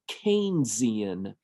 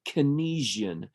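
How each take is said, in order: First: The first syllable sounds like the name Keynes. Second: The first syllable sounds unlike the name Keynes. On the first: The speaker calls it right. "This is pronounced Keynesian" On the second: The speaker calls it wrong. "you're going to hear people say Keynesian. That's actually incorrect"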